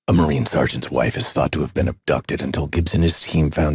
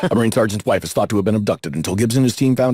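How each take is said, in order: First: It is read at a slower pace. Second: It is read quickly, in one breath.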